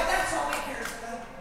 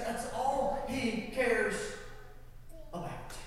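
First: Said in the usual way. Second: "all" stressed and drawn out, softer and slow; slow, soft emphasis. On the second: Shown as a demonstration. Pastor repeating to the congregation, slow quiet stress on "all". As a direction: lean on "all", slow and hushed. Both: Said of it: "repeats the line slowly".

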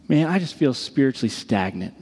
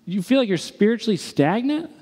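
First: Lower, subdued admission; low and dejected, imitating a friend; downcast confession. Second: High, rising disbelieving question; can't-believe-it query, pitch raised; incredulous echo. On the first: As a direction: own up to it heavily, pitch dropped. Friend confesses, later echoed back in disbelief. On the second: Retold or imitated. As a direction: throw it back as a question, climbing at the end. Throws friend's confession back, incredulous.

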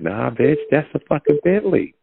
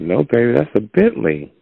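First: High-pitched acted indignation; mock getting mad. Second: Higher-pitched mock insistence; gently insist, pitched up; insistent correction. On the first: Friend arguing over the car, mock mad. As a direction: play mad, voice climbing high without shouting. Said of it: "I start getting mad". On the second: Friend correcting partner about the car, insistent. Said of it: "And I'm like".

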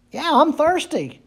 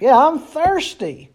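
First: "Yeah, I'm thirsty" lifted high and light; eager confession. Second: "Yeah, I'm thirsty" slowed down, leaning on "I'm"; slow emphatic repeat. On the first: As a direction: say "I'm" raised, softly admitting it. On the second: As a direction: drag out "I'm thirsty" with conviction. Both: Shown as a demonstration. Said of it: "we would have to say that we should say".

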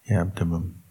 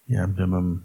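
No difference in how they are said.

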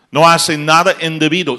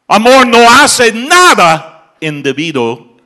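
First: Raised, forceful sermon line; a preacher driving the point home; emphatic preaching. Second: Slow, loud, much higher proclamation; preacher roaring the climax; shouted preaching. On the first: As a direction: state it firmly to the congregation. Preacher stating love's rule. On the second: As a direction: bellow each word to the back pews. Repeats the rule at a climax. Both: Acted.

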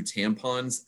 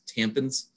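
First: Said in the usual way. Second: "tampons" with the second vowel weakened, like "tampins"; relative's mispronunciation. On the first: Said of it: "refers to tampons as tampons". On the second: Retold or imitated. Host imitating a relative's wording, relative's mispronunciation. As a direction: say "tampons" as TAM-pinz. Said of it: "this relative refers to tampons as".

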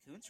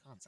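First: "Kuntz" said like "koonts". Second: "Kuntz" with a short uh vowel. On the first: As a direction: say "Kuntz" with a long oo vowel. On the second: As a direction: say "Kuntz" to rhyme with "hunts". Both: Shown as a demonstration. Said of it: "Is it Kuntz or Kuntz?".

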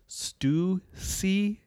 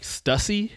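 First: STUSSY as STOO-see, slow and split in two; correct pronunciation demo. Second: STUSSY said as STUSS-ee, short u; wrong pronunciation. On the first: Correcting friends, STUSSY slowly as STOO-see. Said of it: "when it's Stussy". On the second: Quoting friends' mistake, STUSSY as STUSS-ee. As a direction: rhyme STUSSY with fussy, rising at the end. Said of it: "friends even pronounce incorrectly". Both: Shown as a demonstration.

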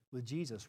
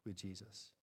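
First: Said in the usual way. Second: Softer, dropping echo of with Jesus. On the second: Shown as a demonstration. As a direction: let with Jesus fall away quietly. Repeated phrase, softer echo.

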